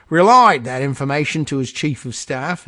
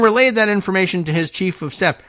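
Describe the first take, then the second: First: Mock Aussie accent that lands nearer Cockney; badly faked Australian, more like Cockney; Australian slipping into Cockney. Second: Said in the usual way. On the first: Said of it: "that sounded more Cockney than anything else".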